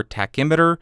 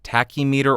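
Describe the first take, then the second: First: Tachymeter said as ta-KIM-it-er; alternative pronunciation. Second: Tachymeter said as TACK-ee-mee-ter; first pronunciation. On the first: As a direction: stress the KIM in tachymeter, like thermometer. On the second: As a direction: say tachymeter as "tacky meter", stress up front. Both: Shown as a demonstration. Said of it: "I don't know how to pronounce it".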